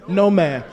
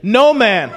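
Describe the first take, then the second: First: It is said plainly, without much force. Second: It is said forcefully, with strong conviction.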